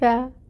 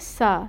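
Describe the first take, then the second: First: It starts with a soft th sound. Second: It starts with a hissing s sound. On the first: The speaker calls it right. "हमने बहुत ज़्यादा नरमी से इसको पढ़ने की कोशिश की ... सीन वाली सिटी ... ना आए" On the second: The speaker calls it wrong. "जैसे हम उर्दू में पढ़ते हैं ना सा, ... इस तरह से नहीं पढ़ेंगे क्योंकि फिर ये सीन की आवाज़ हो जाएगी"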